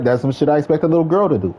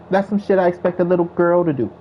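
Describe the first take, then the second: First: It is said in his own neutral voice. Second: It is said in a put-on woman's voice.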